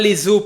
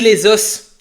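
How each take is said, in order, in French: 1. Le S final de 'os' est muet. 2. Le S final de 'os' est prononcé. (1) "On dit pas les os pluriel" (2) "On dit les os"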